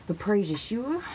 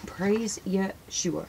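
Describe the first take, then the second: First: Said in the usual way. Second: Drawn-out, devout repeat; slow it right down, savouring the name; slow reverent praise. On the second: Real, not acted. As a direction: reverent and unhurried.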